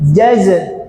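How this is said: The word starts with j, then z. The speaker calls it wrong. "orang Sunda sok pahili"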